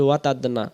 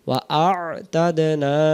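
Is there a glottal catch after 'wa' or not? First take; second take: no; yes. First: The syllables run together without a glottal catch. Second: A glottal catch separates wa from a'tadna. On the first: The speaker calls it wrong. "আমরা বলি ওয়াতাদনা" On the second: The speaker calls it right. "হবে ওয়া আ আ তাদ না"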